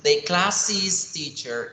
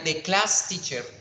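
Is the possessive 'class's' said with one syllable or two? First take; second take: two; one. First: Class's is said as two syllables, like classes. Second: Class's is said as one syllable, like class. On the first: The speaker calls it right. "para que me entiendan la posesión, yo voy a decir" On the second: The speaker calls it wrong. "si yo le pongo otra S y no la pronuncio diferente, no va a sonar"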